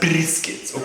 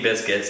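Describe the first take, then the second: First: It is said with a rolled r sound. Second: It is said plainly, with no rolled sound. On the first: "You have to roll the tongue" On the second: "It's not just any biscuits"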